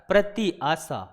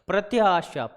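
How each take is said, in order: First: The two parts are said separately, with a break. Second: The two parts run together quickly as one word. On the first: "आप बोल के देखो बेटा" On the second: "इसकी जो speed है वो बढ़ा के देखो"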